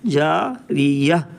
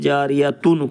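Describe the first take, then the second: First: The word ends with a stopped 'ah' sound. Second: The word ends with a full 'atun' ending. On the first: The reader stops to breathe here. "इसको हम जारियह बना देंगे" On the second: The reading continues without a stop. "जारियतुन को जारियह"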